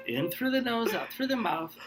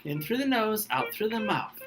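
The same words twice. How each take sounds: First: Softer soothing guidance; calming breath coaching. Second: Softer, higher soothing guidance; calming breath coaching. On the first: Host keeps calming the contestant with breathing, soft and soothing. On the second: Host calms the upset contestant with breathing, soft and soothing. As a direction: talk them down gently. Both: Shown as a demonstration. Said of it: "take a breath".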